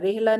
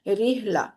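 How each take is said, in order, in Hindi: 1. पहला स्वर 'eh' जैसा सुनाई देता है। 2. पहला स्वर 'ee' जैसा सुनाई देता है। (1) "रेहला नहीं" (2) "जेर की आवाज को ई के साथ पढ़ेंगे"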